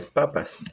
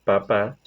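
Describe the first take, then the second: First: Papas with the first syllable stressed, PA-pas. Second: Papá with the second syllable stressed, pa-PÁ; stress on last syllable. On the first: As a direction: put the force on the first pa of papas. (papas con la fuerza en la primera sílaba) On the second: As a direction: lean on the final á of papá. (papá con la fuerza en la última sílaba) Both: Shown as a demonstration. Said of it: "ejemplo de cómo se diferencia".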